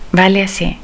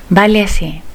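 Both takes have the same delivery.

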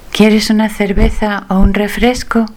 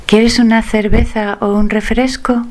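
The two takes are said the same way.

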